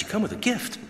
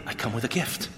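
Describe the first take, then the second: First: Higher-pitched, surprised "gift?"; surprised echo question. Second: Said in the usual way. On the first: Retold or imitated. Echoes officer's news in surprise.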